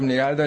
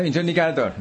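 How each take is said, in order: First: A touch of irritation on a short "نگه دار"; mild retold anger. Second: Sharp, raised mock-angry "نگه دار" with a higher pitch; retold angry order. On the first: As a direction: lightly act out the passenger's annoyed stop order. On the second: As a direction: imitate the irritated passenger snapping to stop the car. (تقلید عصبانی مسافر) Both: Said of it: "با یه عصبانیتی گفت".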